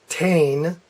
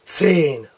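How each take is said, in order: First: The word begins with a plain t sound. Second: The word begins with a hissing ts sound. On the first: The speaker calls it wrong. "They'll pronounce it Tain. That's wrong" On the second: The speaker calls it right. "You need to have a T S sound. Zane. Zane. That's correct"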